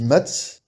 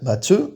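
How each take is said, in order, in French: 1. Le son s'arrête net sur la consonne finale. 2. Une voyelle courte suit la consonne finale. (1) "ça bloque à te" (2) "mais il y a un E derrière"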